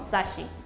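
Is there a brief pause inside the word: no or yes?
no. There is no pause before the sh. The word means nothing. The speaker calls it wrong. "No decimos sashi. No, eso no significa nada"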